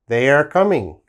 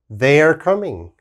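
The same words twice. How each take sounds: No difference in how they are said.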